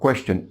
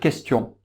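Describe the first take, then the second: First: It is said with an English accent. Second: It is said with a French accent. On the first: "les Anglais, c'est différent. ... Ils vont dire question" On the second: "En français, ... on va dire question"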